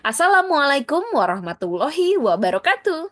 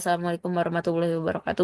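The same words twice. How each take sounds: First: The greeting is spoken with lively, varied pitch. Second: The greeting is spoken in a flat, monotone pitch. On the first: The speaker calls it right. "Tapi ... contohnya kayak gitu ya" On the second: The speaker calls it wrong. "Jadi nggak boleh datar-datar aja. ... Nggak boleh kayak gitu"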